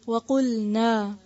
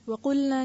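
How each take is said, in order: First: The final vowel is drawn out long. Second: The final vowel is cut short. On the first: The speaker calls it right. "नून के साथ अलिफ है" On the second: The speaker calls it wrong. "वकुलना नहीं"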